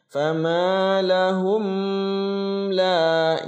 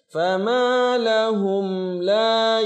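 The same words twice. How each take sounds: First: The m sound is held before the next word. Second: The m sound is clear, neither held nor bounced. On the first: The speaker calls it wrong. "Contoh yang ditahan" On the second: The speaker calls it right. "Harus jelas"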